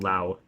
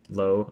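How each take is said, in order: First: The vowel sounds like the one in cow. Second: The vowel sounds like the one in go. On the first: The speaker calls it wrong. "not Lao" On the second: The speaker calls it right. "I think that's probably what it should be"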